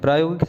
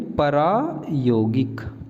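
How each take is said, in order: First: The opening consonants are joined without a vowel. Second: A vowel is inserted between the opening consonants.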